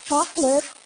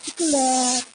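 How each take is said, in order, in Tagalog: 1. Binigkas ito sa maarteng American na accent. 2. Binigkas ito sa malambing at matamis na Ilonggo na accent. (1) "Pag nasa Amerika naman, siyempre, may arte na ... Naging dalawang syllable na lang siya" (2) "Pag nasa Iloilo naman, Bacolod, siyempre may lambing yun"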